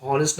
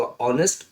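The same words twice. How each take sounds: First: "हॉनेस्ट" with an audible H at the start; h sounded. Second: "ऑनेस्ट" starting on the vowel; silent h. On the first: Teacher warning against a reading, H sounded in "हॉनेस्ट". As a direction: say "हॉनेस्ट", pronouncing the H. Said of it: "हॉनेस्ट ना हो के". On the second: Teacher giving the correct reading, "ऑनेस्ट" with silent H. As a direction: say "ऑनेस्ट" without any H. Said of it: "होगा ऑनेस्ट". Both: Shown as a demonstration.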